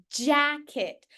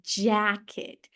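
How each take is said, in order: First: "Jacket" with an English j as in "jam"; correct English. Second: "Jacket" with an English dj, pitched lower; correct English. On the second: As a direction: model "Jacket" with a clear English j. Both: Shown as a demonstration. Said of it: "Pronunciem bonitinho".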